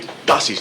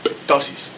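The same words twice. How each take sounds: First: The initial p is silent. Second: The initial p is pronounced. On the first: The speaker calls it right. "you write P T O, you say ptosis" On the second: The speaker calls it wrong. "not ptosis"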